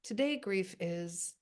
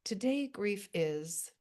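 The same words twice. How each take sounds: First: The prompt again, slow and deliberate; slow prompt reading. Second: Slow, deliberate reading of the writing prompt. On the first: To the group, repeating the prompt slowly before they write. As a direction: let the group hear each word of it. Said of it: "put into the chat bar right now that little prompt". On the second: To the grief writing group, giving their prompt slowly. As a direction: lay out each word of the prompt slowly. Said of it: "I would write this line". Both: Shown as a demonstration.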